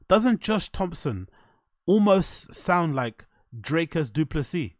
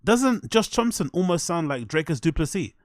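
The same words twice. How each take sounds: First: Slowed right down, word by word; slow, deliberate. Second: Said in the usual way. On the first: Real, not acted. Asking listeners to close their eyes and compare, slow and deliberate. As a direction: spell the question out slowly for effect. Repeats question slowly for effect.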